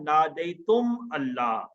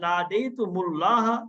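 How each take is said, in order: First: The words are said separately, with no linking vowel. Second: The words are joined with an added 'u' sound. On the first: "साकिन है मीम" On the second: "ये जो पेश नजर आ रहा है ये मिलाने के लिए आया है"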